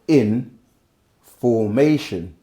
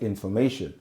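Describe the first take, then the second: First: It is split, with a break after in. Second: It is said smoothly as one word. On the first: Being arranged in a particular order. "if I go in formation, it's different different tones" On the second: Knowledge is being passed on. "you just hear information"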